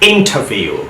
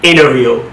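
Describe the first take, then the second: First: It is said in a British accent. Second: It is said in an American accent. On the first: "British অ্যাকসেন্টে কিন্তু টি এর উচ্চারণটা হচ্ছে।" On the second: "এখন আমেরিকানে কিভাবে উচ্চারণটা দেখেন"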